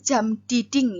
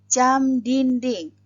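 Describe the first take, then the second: First: The second word has no n before the d. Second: The second word has an n before the d. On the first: The speaker calls it wrong. "bukan jam diding ya" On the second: The speaker calls it right.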